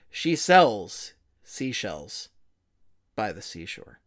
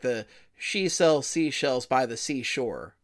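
First: It is said with deep, weighty gravitas. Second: It is said in a plain, ordinary voice.

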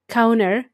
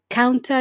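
First: The T sound is swallowed and dropped. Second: The T sound is clearly pronounced. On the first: "In the US, they swallow the sound T" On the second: "you may not hear counter"

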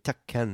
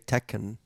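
First: The name is said with a Japanese pronunciation. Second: The name is said with an English pronunciation. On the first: "sounds more Japanese to me" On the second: "I've always say Tekken"

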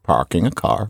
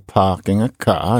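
First: The r sounds are pronounced, American style. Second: The r sounds are dropped, British style. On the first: "instead of parking a car" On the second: "We mean R-lessness, and so you're parking a car"

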